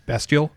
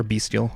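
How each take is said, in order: First: Bestial with a short e, BEST-yul; alternative pronunciation. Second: Bestial with a long e, BEAST-yul; corrected pronunciation. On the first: Player unsure of a card's name, saying Bestial as BEST-yul. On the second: Player second-guessing a card's name, saying Bestial as BEAST-yul. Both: Shown as a demonstration. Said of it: "I always pronounce it wrong".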